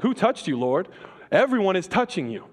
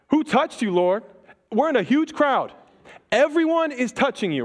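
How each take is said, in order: First: A lighter take on Peter's protest. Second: Frantic disciples. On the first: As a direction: toss it off as a mild objection. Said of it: "Peter's like". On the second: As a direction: push back in a rush, alarmed at the crowd. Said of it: "They're like". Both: Retold or imitated.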